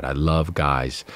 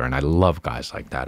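First: I love guys, drawn out slowly with weight on love; slow down and lean on love; slow emphatic repeat. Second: Said in the usual way. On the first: Real, not acted.

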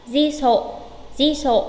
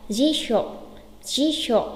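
First: "Di sộ" with a plain s; wrong pronunciation. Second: "Di sộ" said as jisho, with sh; correct pronunciation. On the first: Teacher testing learners with a mistake, "Di sộ" with plain s. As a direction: say "Di sộ" with s in place of sh. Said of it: "À, sai rồi". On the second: Teacher modelling the right form, "Di sộ" as jisho. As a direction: say "Di sộ" with a hushing sh, not s. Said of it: "Nhớ đọc chuẩn phát âm". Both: Shown as a demonstration.

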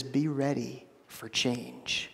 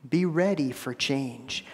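First: Slow and much softer, each word laid down; soft solemn quote. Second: Said in the usual way. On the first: Retold or imitated. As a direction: hush it like a weighty word from God. God's quoted word to Israel.

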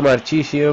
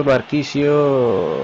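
First: Marchisio with a ch sound, as in chair; Italian name try. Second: Marquisio with a hard k sound, slowly; Spanish reading. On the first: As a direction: Marchisio said mar-CHI-sio with a ch sound. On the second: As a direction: Marquisio said mar-KI-sio, drawn out and falling. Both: Shown as a demonstration. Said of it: "no tengo tampoco un acento italiano bueno".

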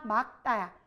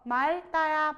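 First: 막다 said as "mak-tta", ㄱ kept; pronunciation contrast. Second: 맑다 said slowly as "mal-tta", ㄹ kept; pronunciation contrast. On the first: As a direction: say 막다 with a stopped k before "tta". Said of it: "헷갈리지?". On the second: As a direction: raise and stretch 맑다 as "mal-tta". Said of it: "이거 맑다야, 막다야". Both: Shown as a demonstration.

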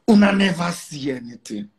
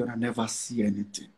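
First: "Una" hit hard with a falling tune, said firmly; firm emphatic warning. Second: A hushed, ominous aside to his critics; low, quiet warning. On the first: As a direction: declare it with weight to the doubters. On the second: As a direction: drop the voice right down on "una never see anything". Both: Real, not acted. Warning critics, repeated for emphasis.

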